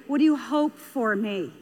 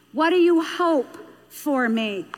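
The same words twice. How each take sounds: First: Said in the usual way. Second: "What do you hope for me?" drawn out deliberately; slow, weighty repeat. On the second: Shown as a demonstration. Speaker repeating the child's question to parents, slow and emphatic. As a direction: stretch HOPE and let "for me" land slowly.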